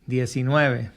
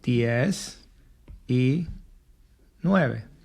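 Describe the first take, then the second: First: It is said quickly, run together as one word. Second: It is said slowly as three separate words. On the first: "you can go a little bit faster" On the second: "nineteen would be diez y nueve"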